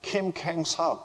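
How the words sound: The name is said with English-style pronunciation. "영어 이름으로 가면 김캥석"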